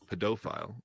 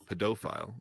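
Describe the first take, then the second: First: It is said with a Canadian pronunciation. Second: It is said with a Canadian pronunciation.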